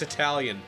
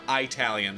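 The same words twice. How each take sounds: First: The first syllable sounds like 'ih'. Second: The first syllable sounds like 'eye'. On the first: The speaker calls it right. "It's pronounced Italian" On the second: The speaker calls it wrong. "not Italian"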